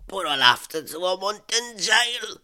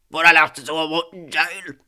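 First: Raised pitch, mildly aggrieved character voice; Kim's protesting voice. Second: Louder, raised-pitch angry protest. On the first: Scammer told there is no more money, protesting with mild anger. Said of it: "His voice sounded angry". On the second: Scammer told there is no more money, angry protest. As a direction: push it out hard and angrily. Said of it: "Oh, he sounded angry". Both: Acted.

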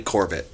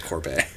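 First: Corbett with stress on the first syllable, KOR-bit. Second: Corbet with stress on the last syllable, kor-BAY. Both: Shown as a demonstration. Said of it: "Corbett and not Corbet".

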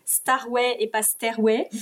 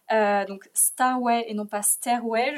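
First: "Starway" clearly "star", then "Stairway" clearly "stair"; Starway versus Stairway. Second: "Starway" with a clear "star" vowel, set apart from "Stairway"; Starway versus Stairway. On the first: Repeating the title for viewers, slow contrast of "Starway" and "Stairway". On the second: Explaining the game's title to viewers, careful contrast of "Starway" and "Stairway". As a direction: slowly spell out "Starway" as opposed to "Stairway". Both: Shown as a demonstration. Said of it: "vous entendez bien la différence".

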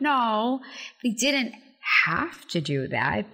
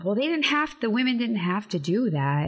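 First: "No" pitched up, then a pause and slow, weighted "have"; stress on HAVE. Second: Higher-pitched voice of a doubter; quoted objector. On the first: Host answers the doubters, stressing "have". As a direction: lean slowly on "have" after a pause. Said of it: "And I'm like". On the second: Host quotes what people often say, lightly mimicked objection. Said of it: "often people say". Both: Retold or imitated.

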